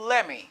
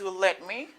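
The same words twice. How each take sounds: First: The two words blend into one reduced word. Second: Both words are said fully and separately. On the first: "il dit let me" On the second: "Au lieu américain dit let me"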